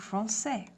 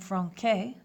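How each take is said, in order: First: The middle consonant is a soft S sound. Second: The middle consonant is a hard K sound. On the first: The word is written with the cedilla. "Just by adding the accent, you change it from franquet to français" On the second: The word is written without the cedilla. "sans accent, without any accents, you would pronounce it franquet"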